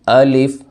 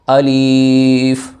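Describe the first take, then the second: First: The vowel after the l is short and plain. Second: The vowel after the l is drawn out. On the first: The speaker calls it right. "इसे पढ़ना अलिफ, बस सिंपल सा" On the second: The speaker calls it wrong. "ऐसे नहीं पढ़ना"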